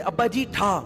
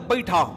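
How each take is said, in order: First: The second word is said clearly as 'ji'. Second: Said fast, the second word slurs into 'hi'. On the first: "कहते थे अब्बा जी ठा ठा करो" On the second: "इतनी speed बोलते अब्बा ही ठा"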